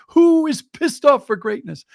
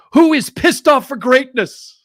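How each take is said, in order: First: Booming high cheerful shout again; loud happy announcement. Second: Booming high cheerful shout across the office; loud happy announcement. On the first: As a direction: belt it out like the morning greeting. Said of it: "that would be his announcement". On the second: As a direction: call it out over the cubicles, full of joy. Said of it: "announce over the cubicles in a very loud voice, happily". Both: Retold or imitated.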